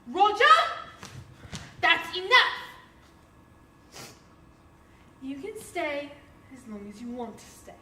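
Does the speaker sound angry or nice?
angry. It is shouted loudly in an angry tone.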